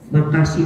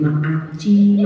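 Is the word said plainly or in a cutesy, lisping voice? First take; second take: plain; cutesy. First: It is said in a plain, ordinary voice. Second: It is said in a cutesy, lisping, babyish voice.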